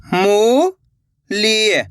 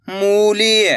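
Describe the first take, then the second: First: मूली with the ऊ held very long, falling at the end; stretched long vowel. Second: Said in the usual way. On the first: Shown as a demonstration. Teacher sounding out the word for pupils, stretched. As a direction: draw out the ऊ of मूली slowly. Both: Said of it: "अब आगे देखिए".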